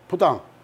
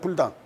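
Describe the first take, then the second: First: The first syllable is 'bu' with no final l. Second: The first syllable is 'bul' with a final l. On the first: The speaker calls it right. "옳잖다. 부당" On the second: The speaker calls it wrong. "불당 하면 안 된단 말이에요"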